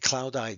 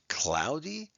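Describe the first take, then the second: First: The final y sounds like 'eye'. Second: The final y sounds like 'ee'. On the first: The speaker calls it wrong. "We don't say" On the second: The speaker calls it right. "it now usually sounds like an E"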